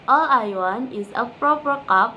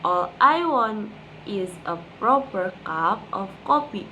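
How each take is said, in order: First: It is said fast. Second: It is said slowly.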